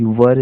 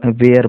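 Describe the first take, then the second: First: "वर" with a short central vowel, like "vur"; one short syllable "वर", no "ay" glide; correct pronunciation of "were". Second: "वेयर" with a long "ay" glide, like "vair"; drawn open "वेयर" in place of "vur"; common mispronunciation of "were". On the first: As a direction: say "वर" as "vur", not "vair". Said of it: "इसका सही pronunciation होता है". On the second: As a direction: say "वेयर" to rhyme with "air". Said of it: "लेकिन बहुत सारे लोग". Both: Shown as a demonstration.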